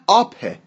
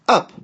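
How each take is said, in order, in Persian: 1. این واکه یک 'ah' بلند و باز است. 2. این واکه یک 'uh' کوتاه و سریع است.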